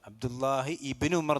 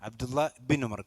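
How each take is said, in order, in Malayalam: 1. 'ibn' സ്വന്തം വേറിട്ട സ്വരാക്ഷരത്തോടെയാണ് തുടങ്ങുന്നത്. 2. 'ibn' അതിനു മുമ്പുള്ള വാക്കുമായി ചേർത്താണ് പറയുന്നത്. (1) "എന്നല്ല" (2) "കൂട്ടി ഉച്ചരിക്കേണ്ടതാണ്"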